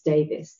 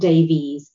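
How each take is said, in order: First: The name ends with an 'iss' sound. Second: The name ends with an 'eez' sound. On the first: The speaker calls it right. "it's Davis" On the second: The speaker calls it wrong. "it's not Davies"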